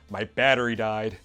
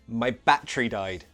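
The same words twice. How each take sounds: First: Said with an American accent throughout. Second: Said with a British accent throughout. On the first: "American English" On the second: "British first"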